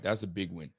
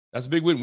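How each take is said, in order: First: Much softer and lower; muttered that's a big win; quiet, low. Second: Louder that's a big win; proud, loud that's a big win; emphatic. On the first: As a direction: say it to yourself. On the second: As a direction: punch it out. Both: Real, not acted.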